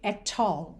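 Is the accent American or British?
British. It is said with a British accent. "o [name] deixou sua marca British aqui"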